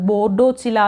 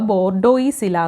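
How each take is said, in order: First: The middle is said with a 'ch' sound instead. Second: The middle is said with an 'ois' and s sound. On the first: This is how it is said in other places. "ചിലയിടത്ത് അത് ബോർഡോച്ചില എന്ന് പറയാറുണ്ട്" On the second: This is how it is said in some places. "ചില സ്ഥലത്ത് നമ്മളിത് pronounce ചെയ്യുമ്പോൾ ബോർഡോയിസില എന്ന് pronounce ചെയ്യാറുണ്ട്"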